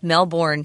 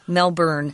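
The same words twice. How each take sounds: First: The second syllable sounds like 'born'. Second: The second syllable sounds like 'burn'. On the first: The speaker calls it wrong. "They say Melbourne, which I did as a kid growing up" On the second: The speaker calls it right. "it's actually pronounced as if it's spelled B U R N"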